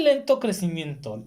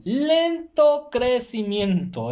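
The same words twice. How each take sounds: First: Said in the usual way. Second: "lento crecimiento" stretched out very slowly, pitched higher; drawn-out emphasis. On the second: Real, not acted. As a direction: draw out each syllable of "lento crecimiento" to stress the slowness. Repeats the phrase, drawn out for emphasis. ("lento crecimiento" muy lento y alargado, con énfasis)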